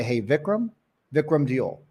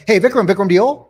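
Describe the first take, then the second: First: "Hey, Vikram" rising, pause, "Vikram Diol" falling; right cadence. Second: "Hey, Vikram, Vikram Diol" run together loud and high; wrong cadence. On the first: Sales coach modelling the name opener, measured cadence on "Vikram Diol". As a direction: leave a beat between "Hey, Vikram" and "Vikram Diol", at an easy level. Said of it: "So we're gonna say". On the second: Sales coach showing how not to say it, loud run-on cadence on "Hey, Vikram, Vikram Diol". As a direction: rush "Vikram, Vikram Diol" out with no pause, pitched up. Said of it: "It's the wrong cadence".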